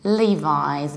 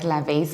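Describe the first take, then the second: First: The first syllable sounds like Lee. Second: The first syllable does not sound like Lee. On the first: The speaker calls it right. "Lee, like a name of a guy" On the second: The speaker calls it wrong. "we don't pronounce it like Levis"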